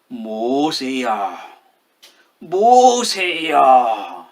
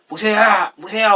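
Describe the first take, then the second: First: It is called out slowly in a grave voice. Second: It is called out urgently, as a warning.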